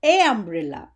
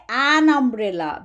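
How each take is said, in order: First: "a umbrella" with "a" said as long "ay"; incorrect article. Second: "an umbrella" with a full, clear "an"; correct article. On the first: Teacher showing what not to say, "a umbrella" with long "ay". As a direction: say "ay" straight into umbrella, no n. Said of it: "we don't say". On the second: Teacher showing the correct form, a clearly linked "an umbrella". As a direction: link the n of "an" into the vowel of umbrella. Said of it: "We say". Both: Shown as a demonstration.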